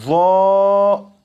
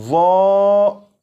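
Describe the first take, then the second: No difference in how they are said.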